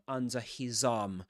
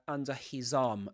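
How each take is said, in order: The two takes are said the same way.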